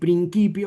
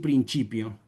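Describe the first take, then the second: First: It uses the classical Latin pronunciation. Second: It uses the ecclesiastical Latin pronunciation. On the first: "En vez de decir principio" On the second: "vamos a establecer una pronunciación para la liturgia"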